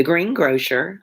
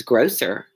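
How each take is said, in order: First: "greengrocer" said like green-grosher; "greengrocer" ending in GROH-sher. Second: "grocer" with a clean s; "grocer" with s rather than sh. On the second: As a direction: say "grocer" as GROH-ser. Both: Shown as a demonstration. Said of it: "I don't think it was grocer".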